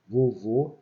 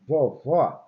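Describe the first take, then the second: First: Vovô with closed final ô, as in "oh". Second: Vovó with open final ó, as in "aw". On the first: Teacher demonstrating circumflex, Vovô with closed vowel. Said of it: "ele tem um timbre fechado". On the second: Teacher demonstrating acute accent, Vovó with open vowel. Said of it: "timbre aberto". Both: Shown as a demonstration.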